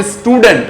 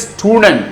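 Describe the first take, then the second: First: "student" with a vowel added before the s; wrong initial vowel. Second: "student" starting straight on the s; correct initial s. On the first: Teacher showing learners the mistake, "student" mispronounced as is-tudent. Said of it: "it is not student". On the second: Teacher correcting learners, "student" begun cleanly on s. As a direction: say "student" with no vowel before the s. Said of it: "it is student". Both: Shown as a demonstration.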